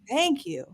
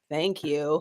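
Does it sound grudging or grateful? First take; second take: grateful; grudging. First: It sounds warm and full of gratitude. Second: It sounds grudging and unfelt, like a child.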